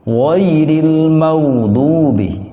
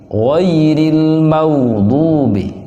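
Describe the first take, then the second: Both takes have the same delivery.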